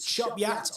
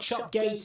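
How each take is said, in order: First: The second part sounds like 'yat'. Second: The second part sounds like 'gate'. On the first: The speaker calls it right. "it's Chopyat" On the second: The speaker calls it wrong. "it's not Chopgate"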